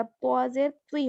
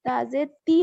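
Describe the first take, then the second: First: त्वा जेर त्वी with a heavy, emphatic t; heavy त्वा sound. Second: ता जेर ती with a light, thin t; light ता sound. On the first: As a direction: say त्वी full-mouthed, with a w-like colour. (त्वी में भारी त्वा) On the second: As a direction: say ती with a plain, unemphatic t. (ती में हल्का ता) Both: Shown as a demonstration. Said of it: "ता और त्वा में फर्क करना है".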